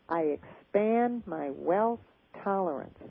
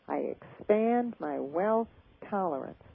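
No difference in how they are said.

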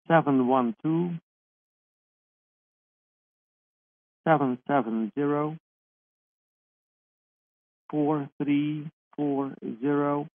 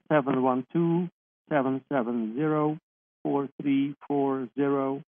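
First: The number is read at normal speed. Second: The number is read quickly.

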